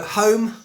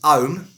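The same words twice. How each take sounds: First: The word starts with an H sound. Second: The word starts without an H sound.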